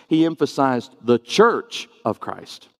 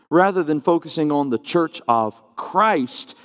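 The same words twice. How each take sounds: First: Christ leaned on a little; stress on Christ. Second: Said in the usual way. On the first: Shown as a demonstration. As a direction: lift the word Christ.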